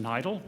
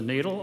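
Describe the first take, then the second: First: The vowel is read the German way. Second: The vowel is read the English way. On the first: This is how a German speaker would read it. "those of you who speak German will know that it should be pronounced NIDL" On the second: This is the name as the lab uses it. "the pronunciation that we use"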